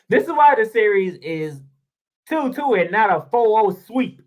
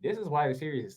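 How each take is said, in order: First: Repeats it louder, punching "why"; stressed restatement. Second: Said in the usual way. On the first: Real, not acted. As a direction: hammer the point home on the repeat.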